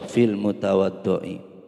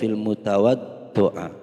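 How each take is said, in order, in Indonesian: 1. Kata ini berakhir dengan vokal 'i'. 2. Kata ini tidak berakhir dengan vokal 'i'. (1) "harus kasroh" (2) "tidak boleh"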